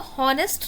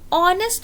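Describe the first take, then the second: First: The word starts with an h sound. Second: The word starts directly with a vowel. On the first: The speaker calls it wrong. "हम इसको हॉनेस्ट नहीं बोलते" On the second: The speaker calls it right. "हम इसको ऑनेस्ट बोलते हैं क्योंकि H इसमें साइलेंट होता है"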